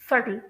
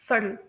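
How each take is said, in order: First: The middle consonant is a clear t sound. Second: The middle consonant sounds softly like a d. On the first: "British pronunciation में इस word को pronounce किया जाता है" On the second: "American pronunciation में ... slightly डी की तरह pronounce किया जाता है"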